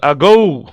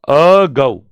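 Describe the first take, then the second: First: Said in the usual way. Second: "ago" broken into a separate "a" and "go"; split into syllables. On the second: Shown as a demonstration. Teacher counting syllables for students, "ago" split in two. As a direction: say "ago" as two distinct beats, a... go. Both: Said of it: "में एक है".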